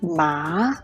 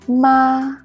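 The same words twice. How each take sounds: First: The pitch rises from middle to high. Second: The pitch stays high and level. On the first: "The second one is a rising tone" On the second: "The first one is a high-level tone"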